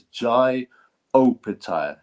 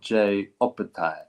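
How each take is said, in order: First: The first name sounds like 'Jai', rhyming with 'eye'. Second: The first name sounds like 'Jay', rhyming with 'day'. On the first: The speaker calls it right. "Apparently, it's Jai Opataya" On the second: The speaker calls it wrong. "not Jay Opataya"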